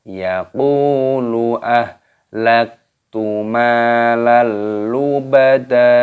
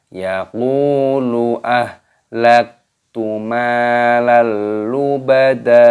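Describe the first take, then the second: No difference in how they are said.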